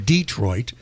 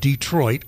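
First: It is said the way Detroit locals say it. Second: It is said the general, non-local way.

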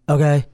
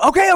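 First: The okays sound flat and droning in pitch. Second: The okays sound lively and varied in pitch. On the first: They just want to be left alone. The speaker calls it wrong. "it's like a monotone droning" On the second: They understand and want the explanation to stop. The speaker calls it right. "that to me says they understand it"

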